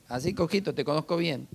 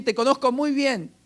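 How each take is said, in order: First: Softer, dismissive imitation of a judging onlooker; mock sizing-up. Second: High-pitched, insistent mock boast; mocking know-it-all. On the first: Preacher mimics people eyeing the believer, softly mock sizing-up. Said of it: "Y te miran así como diciendo". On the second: Preacher mimics people who claim to know you, mocking know-it-all. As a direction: parrot a presumptuous person, pitched up. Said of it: "Hasta agregan también".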